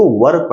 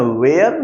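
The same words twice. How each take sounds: First: WERE said with a central vowel, like "vur"; correct pronunciation. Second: WHERE said with an open "ay" vowel, like "vair"; wrong pronunciation. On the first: Teacher correcting how students read a helping verb, WERE pronounced "vur". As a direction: say WERE as "vur", without any "ay" glide. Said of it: "इसको were पढ़ते हैं". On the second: Teacher showing students the misreading of a helping verb, wrong pronunciation of WHERE as "vair". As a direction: say WHERE as the mistaken "vair" reading. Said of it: "where नहीं". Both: Shown as a demonstration.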